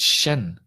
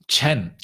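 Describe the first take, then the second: First: The name begins with an 'sh' sound. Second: The name begins with a 'ch' sound. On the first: The speaker calls it right. "It's Shen. I was pronouncing it long wrong" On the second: The speaker calls it wrong. "it's not Chen, is it?"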